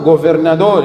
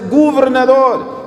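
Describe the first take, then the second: First: The word is articulated carelessly, without clear diction. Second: The word is articulated carefully, with clear diction. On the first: The speaker calls it wrong. "não é assim, Gaspar" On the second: The speaker calls it right. "A palavra governador lê-se governador"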